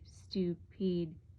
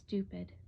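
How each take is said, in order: First: It is said with a thick French accent. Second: It is said in a plain English accent.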